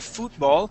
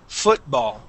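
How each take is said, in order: First: The first vowel is a long oo sound. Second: The first vowel is a short u sound. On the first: The speaker calls it wrong. "does not sound like an oo sound. We don't say football" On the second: The speaker calls it right. "We say fu football"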